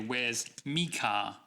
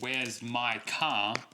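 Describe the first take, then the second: First: The pronoun is said with an 'ee' vowel. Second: The pronoun has the full 'my' vowel. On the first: The speaker calls it wrong. "a very Australian thing that we do" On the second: The speaker calls it right. "Instead of saying"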